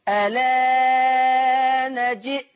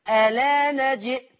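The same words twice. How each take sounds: First: The vowel after the hamza is held moderately. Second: The vowel after the hamza is held briefly. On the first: "التوسط" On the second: "القصر"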